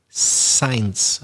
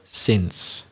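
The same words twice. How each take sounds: First: The vowel sounds like the vowel in 'eye'. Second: The vowel sounds like the vowel in 'it'. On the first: The speaker calls it wrong. "a very typical mispronunciation" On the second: The speaker calls it right. "It's ever since"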